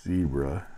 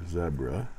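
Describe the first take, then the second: First: Zebra said with a long ee, ZEE-bra; ZEE-bra pronunciation. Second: Zebra said with a short e, ZEB-ra; ZEB-ra pronunciation. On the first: Pen reviewer giving one regional option, zebra as ZEE-bra. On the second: Pen reviewer offering the other regional option, zebra as ZEB-ra. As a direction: say zebra to start like "zed" without the d, ZEB-ruh. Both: Shown as a demonstration. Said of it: "depending on where you're from".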